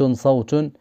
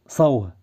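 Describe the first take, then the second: First: The word ends with a t sound. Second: The word ends with an h sound. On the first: The speaker calls it right. "لأن بيت صوت بنات تكتب مبسوطة" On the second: The speaker calls it wrong. "ميمكنناش نقول البيه صوه بناه"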